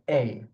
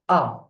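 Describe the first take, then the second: First: The vowel is said with an English sound. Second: The vowel is said with a French sound. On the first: The speaker calls it wrong. "Don't pronounce the A as A, like in English" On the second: The speaker calls it right. "A, not A"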